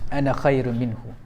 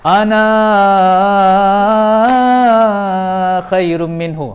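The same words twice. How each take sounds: First: The final vowel of ana is kept short. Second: The final vowel of ana is drawn out long. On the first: It avoids dwelling on the self. The speaker calls it right. "baris mati, jangan baca panjang-panjang" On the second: It dwells on the self, showing ego. The speaker calls it wrong. "Kalaulah ana itu dengan baris mat kan"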